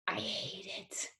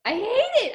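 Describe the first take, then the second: First: Whispered. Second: Pitched up, exclaimed; high exclamation. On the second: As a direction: cry it out high. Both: Acted. Stage dread, whispered then cried out.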